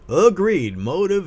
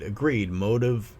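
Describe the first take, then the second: First: It is read in a put-on character voice. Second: It is read in the speaker's normal voice.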